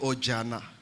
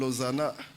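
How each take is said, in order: First: The middle consonant is a j sound. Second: The middle consonant is a z sound. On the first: A small child cannot yet say the name properly. The speaker calls it wrong. "Elle dit Ojana" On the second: This is the name as it really is. The speaker calls it right. "elle s'appelle Ozana"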